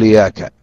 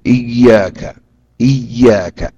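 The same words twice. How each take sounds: First: إياك said quickly with a single light ي; wrong model of إياك without the doubled ي; light ya mistake. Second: إياك said with the ي clearly doubled and held; careful model of إياك with a doubled ي. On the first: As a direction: drop the doubling in إياك, rushed. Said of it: "لا يقول". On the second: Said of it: "أن يشدد الياء". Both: Shown as a demonstration.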